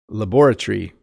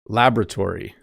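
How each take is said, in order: First: It is said in a British accent. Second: It is said in an American accent. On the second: "So American"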